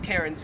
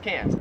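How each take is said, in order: First: The R sound is pronounced. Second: The R sound is dropped.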